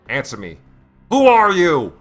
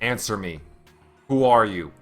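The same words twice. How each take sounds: First: It is said forcefully, as an exclamation. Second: It is said flatly, without exclamation.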